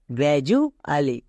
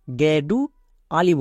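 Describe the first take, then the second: First: গ্র্যাজুয়ালি said slowly with a j, gra-ju-a-li; correct pronunciation. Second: গ্র্যাডু আলি said with a hard d sound, the common mistake; mock the error গ্র্যাডু আলি, d instead of j; wrong pronunciation. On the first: Teacher correcting students after the mistake, slow clear model. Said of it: "এর উচ্চারণ হবে". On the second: Teacher showing students a common mistake, wrong pronunciation. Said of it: "অনেকে ভুল করে". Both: Shown as a demonstration.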